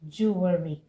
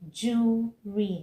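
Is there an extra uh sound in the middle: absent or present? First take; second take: present; absent. First: The word is said with a middle uh sound. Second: The word is said without a middle uh sound. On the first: The speaker calls it wrong. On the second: The speaker calls it right.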